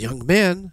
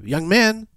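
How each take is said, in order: First: Raised, higher call. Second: High-pitched, insistent call. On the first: Tree calls the napping young man, calling out. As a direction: call out to wake someone. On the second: Tree calls as he falls asleep, high call. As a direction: call higher to rouse a sleeper. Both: Retold or imitated.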